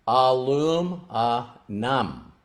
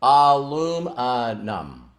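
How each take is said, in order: First: "Aluminum" slow, low and soft, each syllable apart; moved, careful "Aluminum". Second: "Aluminum" said slowly, lower, syllable by syllable; careful syllable-by-syllable "Aluminum". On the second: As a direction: sound out "Aluminum" like a first try. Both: Retold or imitated. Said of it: "say each syllable slowly".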